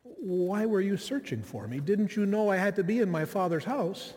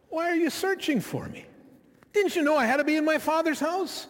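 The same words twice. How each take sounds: First: Calm, gracious, matter-of-fact reply; gentle matter-of-fact son speaking to his mother. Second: Put-on higher, indignant child talking back; sarcastic eye-rolling reply to a parent; a child's exasperated retort to his mother. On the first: Retold or imitated. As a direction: answer kindly, without any edge. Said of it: "in a much calmer tone".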